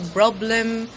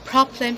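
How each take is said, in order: First: The word begins with a voiced B sound. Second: The word begins with a voiceless P sound. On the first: The speaker calls it wrong. "we say sometimes" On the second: The speaker calls it right. "not party and problem"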